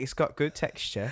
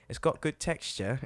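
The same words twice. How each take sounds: First: Put-on higher, laughing British accent praise. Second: A mock British baking-judge accent. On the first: British friend repeating the praise line, higher, in his British accent. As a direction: quote the line the way the Brit did. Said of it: "he's like". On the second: Host quoting the baking show to his British friend, British accent. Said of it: "I love doing British accents to him".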